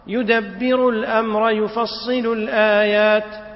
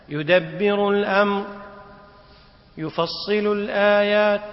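First: Slow chant, "الأمر" running straight into "يفصل"; no pause between "الأمر" and "يفصل"; joined as one sentence. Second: Slow chant with a full pause after "الأمر"; stopping mid-verse. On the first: Teacher shows the correct reading, "الأمر يفصل" joined. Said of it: "فتقرأهما على أنهما جملة واحدة". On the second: Teacher shows a faulty stop, pausing after "الأمر". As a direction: stop dead after "الأمر", then chant "يفصل الآيات". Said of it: "فلو وقف الإنسان". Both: Shown as a demonstration.

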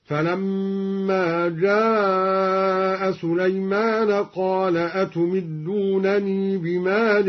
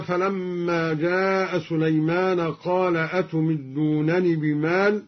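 First: "أتمدونني" with long final ee, chanted; sounded final ya. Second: Said in the usual way. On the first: Shown as a demonstration. Teacher demonstrating linked reading, "أتمدونني" chanted with long ee. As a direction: chant slowly, holding the ee ending "أتمدونني". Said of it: "وصلا هكذا". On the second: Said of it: "قرأ الدوري بإثبات الياء".

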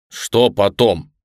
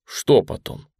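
First: Louder, slow irritated retort; exasperated, drawn-out echo of a question. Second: Said in the usual way. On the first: A narrator's reading. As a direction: throw the question back in annoyance. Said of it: "раздражённо откликнулся Ружера".

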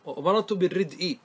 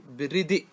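First: بالردء said "bir-rid'i", i after the glottal stop; final kasra after hamza. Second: بالردء said "bir-ridi'", cut on a glottal stop; kasra moved back. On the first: Teacher listing case endings, بالردء as "bir-rid'i". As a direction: end بالردء on hamza plus i. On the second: Teacher showing the pausal form, بالردء as "bir-ridi'". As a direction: put i on the d of بالردء, then stop on hamza. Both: Shown as a demonstration. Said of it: "وانقل كسرة".

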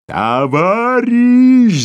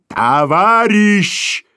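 First: Very high, loud and slow siren howl; siren roar. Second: Slow, drawn-out and higher, in a voice unlike the narrator's own; furious clang. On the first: Boss roars at the clerk like a siren. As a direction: wail the word like a siren. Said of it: "заревел, как сирена". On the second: Rushing boss brushes off the clerk, a furious drawn-out call. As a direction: ring the word out like a hard bell. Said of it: "звякнул бешено". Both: A narrator's reading.

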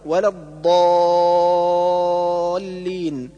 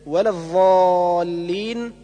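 First: الضالين with true ض and very long held aa; correct dad. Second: الضالين with emphatic dh, ظ, long aa; dad as zha. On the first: Teacher reciting the correction, الضالين with full ض and madd. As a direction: press the ض, then stretch the aa of الضالين. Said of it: "والصواب". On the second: Teacher showing another error, الضالين said with ظ. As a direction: turn the ض of الضالين into ظ. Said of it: "كالنطق بالضاد ضاء". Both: Shown as a demonstration.

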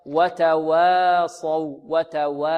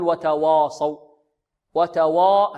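First: وتواصوا with a thin, light waw and long aa. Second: وتواصوا with a heavy, rounded "waaw" darkened towards o; heavy waw error. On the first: Teacher modelling correct tajweed, light waw in وتواصوا. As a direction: draw out وتواصوا slowly, keeping وا thin before the heavy ص. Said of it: "مرققة هكذا". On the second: Teacher showing students a mistake, over-heavy waw in وتواصوا. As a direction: thicken the وا in وتواصوا as a wrong example. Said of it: "لا نقول وتواصوا، وتوا-، هذا خطأ". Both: Shown as a demonstration.

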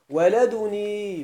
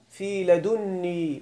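First: ولدني with a single n, wa-ladunī; drawn-out ولدني, light short n; lightened n. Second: لدني with a held double n, ladunnī; slow, careful ladunnī for لدني; doubled n. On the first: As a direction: say ولدني slowly without doubling the nūn. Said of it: "بتخفيف النون". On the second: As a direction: lean on the doubled nūn in لدني. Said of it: "بتشديد النون". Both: Shown as a demonstration.

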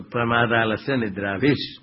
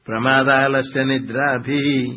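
First: "विष" ends in a clear s sound; sandhi s ending. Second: "भी" drawn out slow, with no final s; wrong visarga ending. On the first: Teacher showing students the joined ending, "विष" ending in s. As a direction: close "विष" on a short vowel and hissed s. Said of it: "बोलते समय विसर्ग बोलना गलत है". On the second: Teacher showing the faulty recitation, "भी" long without the s. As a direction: stretch "भी" into a long open ee. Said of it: "ऐसा बोलना गलत है, अशुद्ध है". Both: Shown as a demonstration.

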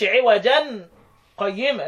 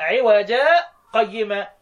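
First: "عوجا قيمة" run together with the tanween sounded as "عوجن قيمة"; the wrong way: tanween pronounced, no break; wrong, joined. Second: "عوجا" ends on a long a with no n, then a brief catch before "قيمة"; right, light pause. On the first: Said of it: "ما تقولش". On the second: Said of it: "لا". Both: Shown as a demonstration.

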